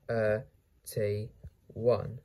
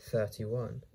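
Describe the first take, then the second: First: "thirty-one" stretched into separate sounds; syllable by syllable. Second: Said in the usual way. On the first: Shown as a demonstration. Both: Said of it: "How to pronounce this word?".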